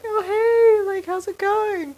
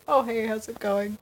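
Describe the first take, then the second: First: It is said with high, excited energy. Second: It is said calmly with low energy.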